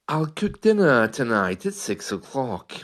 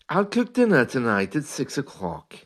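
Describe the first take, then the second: Both takes have the same delivery.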